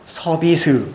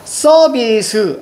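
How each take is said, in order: First: The first consonant is plain, not tense. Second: The first consonant is tense. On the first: The speaker calls it right. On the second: The speaker calls it wrong.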